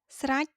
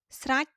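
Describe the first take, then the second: The two takes are said the same way.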